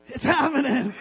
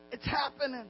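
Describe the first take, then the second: First: Louder playful repeat, chuckling after; playful catchphrase. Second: Soft, playful aside; playful catchphrase. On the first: Pastor joking with fellow pastors, playful and louder. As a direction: say it up and out, for the laugh. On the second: Pastor joking about church growth, softly playful. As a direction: drop it softly, then chuckle. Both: Acted.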